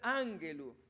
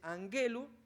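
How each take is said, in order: First: The stress falls early, on the first syllable. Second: The stress is shifted later in the word. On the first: The speaker calls it wrong. "No puede ser ángelu" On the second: The speaker calls it right. "el acento se corre"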